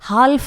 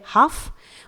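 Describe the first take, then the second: First: The L sound is pronounced before the F. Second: The L sound is silent before the F. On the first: The speaker calls it wrong. "इसे हम हाल्फ नहीं पढ़ेंगे" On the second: The speaker calls it right. "यह है हाफ"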